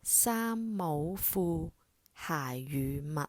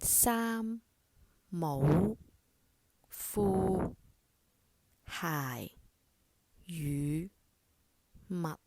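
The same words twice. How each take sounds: First: It is said at a fast pace. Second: It is said at a normal, slow pace.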